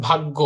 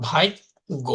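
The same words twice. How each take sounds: First: Said in the usual way. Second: ভাগ্য said as "bhaig-go", an i glide before go; inserted i sound. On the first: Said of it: "যদি আমি এখানে বলি". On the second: Shown as a demonstration. Teacher showing students epenthesis, ভাগ্য pronounced "bhaig-go". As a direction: slip an i into ভাগ্য: "bhaaig... go". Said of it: "আমরা কি লিখবো?".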